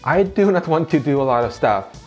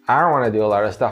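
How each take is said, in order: First: Every word is said fully and separately. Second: Words are contracted and run smoothly together. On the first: The speaker calls it wrong. "if you say it like that, you'll sound a bit robotic" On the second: The speaker calls it right. "What most people would actually say"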